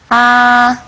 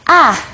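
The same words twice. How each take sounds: First: It is held at a high level pitch. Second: It is said with the fourth tone. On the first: "El primer tono es el más alto" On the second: "el último es A"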